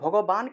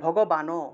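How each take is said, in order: First: The word ends on a closed n consonant. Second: The word ends with an added final o vowel. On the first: The speaker calls it right. "ভগবান কেন বললাম?" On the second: The speaker calls it wrong. "এটাকে আমরা ভগবানও কেন বললাম না?"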